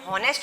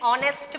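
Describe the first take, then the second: First: The word starts with an audible h sound. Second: The word starts directly with a vowel sound. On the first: The speaker calls it wrong. "हॉनेस्ट नहीं" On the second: The speaker calls it right. "एच इसमें जो है ये silent है"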